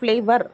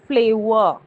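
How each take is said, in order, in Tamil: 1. இந்த சொல் உச்சரிக்கப்படும் r ஒலியுடன் முடிகிறது. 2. இந்த சொல் உயிரெழுத்தில் முடிகிறது, r இல்லை. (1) "நாட்ஸ் ஃப்ளேவர்" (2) "it's a ஃப்ளேவர்"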